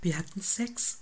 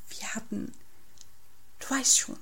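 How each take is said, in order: First: Said in the usual way. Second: Hushed, halting confidence; lightly whispered, secretive hint; whispering. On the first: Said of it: "Wieso flüsterst du?". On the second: A narrator's reading. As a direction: start very softly, hesitate, then get it out. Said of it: "flüstert Felix".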